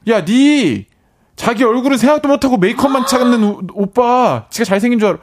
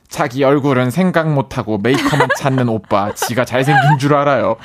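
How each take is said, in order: First: High, loud scolding yell; sister's yell. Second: Reads the note, laughing; reading with a laugh. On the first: Retold or imitated. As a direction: shout it like an angry little sister. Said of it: "동생이". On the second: Real, not acted. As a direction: read it out, chuckling. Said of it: "동생 말 그대로 적어볼게요".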